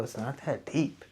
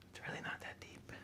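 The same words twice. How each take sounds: First: Said in the usual way. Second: Soft whisper to himself. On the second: Real, not acted. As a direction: breathe it out to yourself. Whispered aside.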